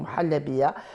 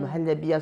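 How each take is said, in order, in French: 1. Le son h est fortement prononcé. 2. Le son h est doux et soufflé. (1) "se transforme en" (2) "le H n'est pas très prononcé, mais respiré"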